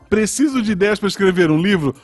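It ends with a rising, question-like tune.

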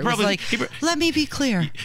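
It is said in a soft, gentle way. The speaker calls it right. "It's much softer"

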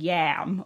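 It is said with a Thai accent.

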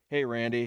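It is said in a put-on deep voice.

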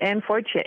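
The name is said with an American accent.

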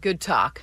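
It is said in a sarcastic tone.

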